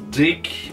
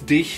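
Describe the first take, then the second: First: The word ends in a hard k sound. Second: The word ends in a soft hissing sound. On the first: The speaker calls it wrong. "not dick" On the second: The speaker calls it right. "it's dich, the German C H"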